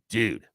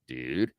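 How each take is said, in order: First: It sounds like a stern scolding. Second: It sounds like a puzzled question.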